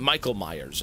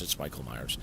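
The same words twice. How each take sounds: First: Said in the usual way. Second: Much lower and softer, a spooky aside; quiet low ominous Michael Myers; ominous low repeat. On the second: Real, not acted. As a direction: drop the voice low and hushed like a horror teaser. Repeats the name, dropping low.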